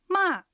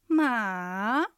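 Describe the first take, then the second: First: The pitch falls sharply from high. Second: The pitch dips low, then rises. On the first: It means to scold. "びっくりするような下がる音です。" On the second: It means horse. "がっかりするような下がって上がる音です。"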